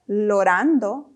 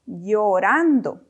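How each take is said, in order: First: The word begins with an L sound. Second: The word begins with a Y sound. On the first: The speaker calls it wrong. "So we don't say lorando" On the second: The speaker calls it right. "The double L makes a Y sound. So we say llorando"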